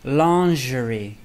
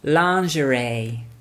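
First: It is said in a British accent. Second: It is said in an American accent. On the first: "In British pronunciation, we say lingerie" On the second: "In American pronunciation, lingerie"

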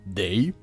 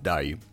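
First: The vowel sounds like 'e'. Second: The vowel sounds like 'a'. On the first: This is the Poznań dialect way of saying it. "mieszkaniec stolicy Wielkopolski może powiedzieć też" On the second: This is the standard Polish way of saying it.

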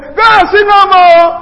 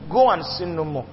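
First: It is said in a strong, harsh tone. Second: It is said in a soft, gentle tone.

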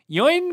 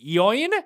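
First: The name sounds like the English name Ian. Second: The name rhymes with coin, with an added 'E' sound. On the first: "I'm going to say Ian, because that would just be logical" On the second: "if I was just to pronounce it straight up, I mean, spelled like coin, but with an E"

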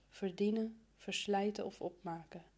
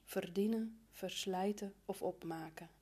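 The two takes are said the same way.

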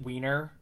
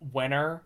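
First: The first vowel is long, like 'ween'. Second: The first vowel is short, like 'wen'. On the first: This is a deliberate mispronunciation for a later joke. "I'm going to pronounce it Wiener" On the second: This is believed to be the real pronunciation. "I believe it's pronounced Wenner"

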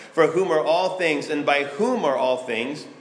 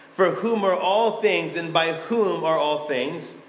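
The two takes are said the same way.

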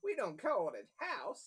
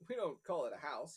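First: It is spoken with an American cowboy accent. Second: It is spoken with a British accent. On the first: The speaker calls it right. "he's wearing a cowboy hat, so maybe his voice should change" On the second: The speaker calls it wrong. "I gave him a British accent"

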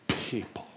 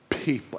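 First: It is said with distaste, like a cuss word. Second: It is said warmly and positively.

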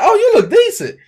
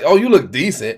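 First: It sounds like a warm, sincere compliment. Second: It sounds lukewarm, implying room for improvement.

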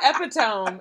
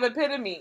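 First: The word is said with three syllables. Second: The word is said with four syllables. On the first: Someone else said it this way. The speaker calls it wrong. "He said epitome" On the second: This is how it should be said. The speaker calls it right. "instead of epitome"

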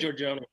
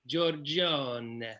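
First: The name is said with an English pronunciation. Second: The name is said with an Italian pronunciation. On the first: "You can say Giorgione" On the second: "In the Italian, in the old country, you say Giorgione"

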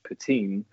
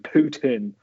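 First: It is said like 'poo-teen'. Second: It is said like the name 'Putin'. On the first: The speaker calls it right. "which I learned is the proper way of saying it" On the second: The speaker calls it wrong. "I was going Putin. As in Vladimir"

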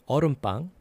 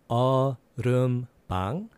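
First: The word is said faster. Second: The word is said slowly.

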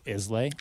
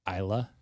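First: The name is pronounced as it is spelled. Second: The name is not pronounced as it is spelled. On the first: "it looks like Islay" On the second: "the correct pronunciation is Islay"

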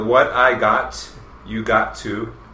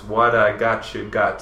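First: The words are said separately and fully. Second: The words are run together with reduced sounds.

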